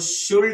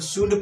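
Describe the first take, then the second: First: The word is said with an L sound. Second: The word is said without an L sound. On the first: The speaker calls it wrong. "इसको शुल्ड नहीं पढ़ते हैं" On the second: The speaker calls it right. "इसको शुड पढ़ते हैं"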